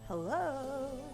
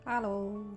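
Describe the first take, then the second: First: It is said with high energy. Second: It is said with low energy.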